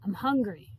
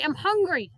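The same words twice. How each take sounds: First: It is said at normal volume. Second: It is yelled loudly.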